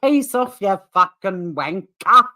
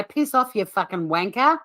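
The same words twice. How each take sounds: First: Put-on overdone Aussie accent, slow and loud on wanker; mock Aussie accent. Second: Aussie accent demo. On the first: Imitating how he calls us Aussies, mock Aussie accent. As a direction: parody a bad Aussie accent, stretching the words. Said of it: "Aussie accent". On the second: Shown as a demonstration. Coaching Will to repeat after me, Aussie accent demo. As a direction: show how a real Aussie accent says it. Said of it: "Repeat after me, Will".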